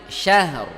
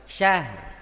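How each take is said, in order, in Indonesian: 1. R-nya berat, dengan bibir membulat dan maju ke depan. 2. R-nya ringan, dengan bibir tidak membulat. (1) "bunyi R-nya itu bibirnya maju" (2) "bibirnya nggak maju, keliru"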